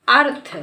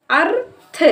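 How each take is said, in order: First: अर्थ said as one joined word; blended reading. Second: अर्थ split as "अर... थ", higher; sounding out. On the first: Teacher reading the built word for learners, अर्थ blended whole. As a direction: join अर straight onto थ in अर्थ. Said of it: "इसको पढ़ेंगे हम". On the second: Teacher building the word for learners, अर्थ sounded out in parts. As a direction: hold अर, then add थ separately to make अर्थ. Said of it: "मिला मिला कर पढ़ते हैं". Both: Shown as a demonstration.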